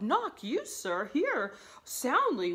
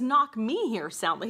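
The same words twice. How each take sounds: First: "you" lifted high in mock disbelief; questioning YOU. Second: "me" punched in a louder retold command; stress on ME. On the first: Servant querying his master's order, incredulous on "you". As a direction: query "you", then stretch out the rest slowly. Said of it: "He's like". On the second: Master's order as the servant hears it, stress on "me". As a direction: lean on "me" in the order. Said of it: "he says".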